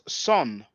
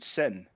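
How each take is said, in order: First: The vowel is an o sound. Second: The vowel is an e sound. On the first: "in the Coptic language, it's pronounced son" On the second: "We usually pronounce it sen"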